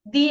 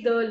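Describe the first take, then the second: First: The word has a long 'ee' vowel. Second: The word has a short, neutral vowel. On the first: "तो you should say दी" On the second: "तो द बोला मैंने"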